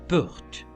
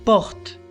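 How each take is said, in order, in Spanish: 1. La vocal es cerrada y redondeada, cerca de la U. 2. La vocal es una O abierta, como en español. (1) "sino porte" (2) "yo no le voy a pronunciar porte"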